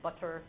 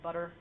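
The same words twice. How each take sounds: First: The middle consonant is a full T. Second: The middle consonant is a quick flap. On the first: The speaker calls it wrong. "we don't say" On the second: The speaker calls it right. "we say butter. That's a flap"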